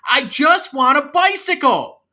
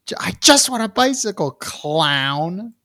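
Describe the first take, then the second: First: High, loud, drawn-out tantrum yell; yelling kid. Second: Very high, quick, squeaky imitation; mock demanding kid. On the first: Acted. Kid yells at clown uncle for a bicycle, tantrum. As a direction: yell it like a kid refusing to budge. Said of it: "why are you yelling at me". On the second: Host re-quotes the kid to tease, mock high voice. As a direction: mimic a bratty kid, pitched way up.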